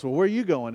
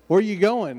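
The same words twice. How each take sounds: First: "you" stressed to turn the question back. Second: "Where" pitched high and punched; stress on Where. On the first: Man returns the question to the other, "you" stressed. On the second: Hitchhiker and driver ask destinations, "Where" stressed high. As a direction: lead hard on "Where", then fall. One man asks, other echoes. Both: Retold or imitated.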